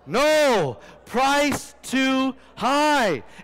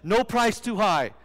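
First: There is a pause right after "no". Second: It runs on with no pause after "no".

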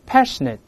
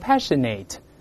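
First: The last syllable is said with a short reduced vowel. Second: The last syllable is said with a full 'ate' vowel. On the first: The speaker calls it right. "是net 不是nate" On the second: The speaker calls it wrong. "不要读成passionate"

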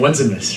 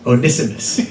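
First: The first syllable sounds like the word 'one'. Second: The first syllable does not sound like 'one'. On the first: The speaker calls it wrong. "I kept saying Onesimus ... good to have oneness, right? Like Onesimus" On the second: The speaker calls it right. "It's actually Onesimus. ... That is the correct pronunciation"

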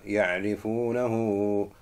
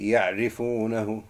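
First: The final vowel is stretched a little longer. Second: The final vowel is short, not stretched. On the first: The speaker calls it right. "so you're stretching it because of that mud" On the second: The speaker calls it wrong. "It's not going to be ya'rifunahu"

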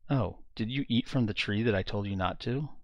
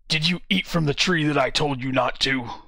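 First: It sounds gentle and comforting. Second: It sounds accusing and harsh.

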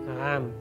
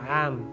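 First: The word starts with a throaty ayn sound. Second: The same.

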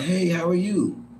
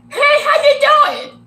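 First: It sounds friendly, with a little smile. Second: It sounds overly cheerful, with a big smile.

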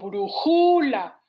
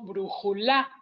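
First: The stress is on the second syllable. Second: The stress is on the third syllable. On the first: "porque no digo brújula" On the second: "tampoco digo brújula"

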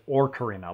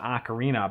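First: The first syllable sounds like 'or'. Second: The first syllable sounds like 'ah'. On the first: "like O-R" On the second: "in the Midwest accent, O's are often A's"

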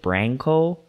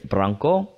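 First: The name is said with English-style sounds. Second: The name is said with Portuguese-style sounds. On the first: This is how the family says it. "my parents pronounce it Branco" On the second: This is the original-language pronunciation. "It's Branco, in Portuguese actually"

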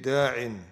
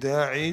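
First: The word ends in an 'in' sound. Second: The word ends in a long 'ee' vowel. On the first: "you say da'in" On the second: "Instead of saying da'i"

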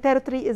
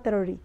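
First: The middle t is clearly pronounced. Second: The middle t is swallowed and dropped. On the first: "territory is the pronunciation احنا نعرفه" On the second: "هم هنا بينطقوها territory لان التي في النص بتتخطف"

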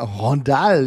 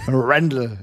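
First: The name is pronounced the French way. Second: The name is pronounced the English way. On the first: The speaker calls it wrong. "Französisch und nicht äh, Englisch aussprechen muss und dass das dann Rondal heißt" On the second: The speaker calls it right. "Englisch aussprechen"

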